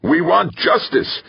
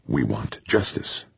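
First: High, slow drawn-out yell; yell from the crowd. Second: Low-key, softer demand; restrained demand. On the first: Man in the mob demanding justice, yelling. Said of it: "a voice yelled from the crowd". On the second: Mob leader demanding justice for killed families, restrained. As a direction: state the demand quietly, without shouting. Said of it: "spat out a string of rapid Spanish". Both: A narrator's reading.

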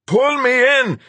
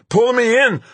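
First: Desperate yell for help. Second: Desperate shout. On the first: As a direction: bellow it in panic. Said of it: "he yelled". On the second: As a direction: shout it out in panic. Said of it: "Rodriguez shouted again". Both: Acted.

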